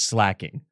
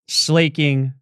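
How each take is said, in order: First: The first syllable sounds like 'slack'. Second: The first syllable sounds like 'slay'. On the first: "slacking makes more sense" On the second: "never once considered that it wasn't slaking"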